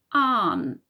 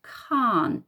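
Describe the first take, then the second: First: CAN'T split into k, a long loud AHN, t; sounded out. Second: CAN'T as one slow, falling word; blended word. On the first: Teacher showing children a contraction, CAN'T broken into sounds. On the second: Teacher putting squished-together word back together, CAN'T blended slowly. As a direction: say CAN'T whole, vowel drawn long. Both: Shown as a demonstration.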